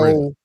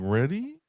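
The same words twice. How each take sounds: First: It falls at the end like a statement. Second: It rises at the end like a question.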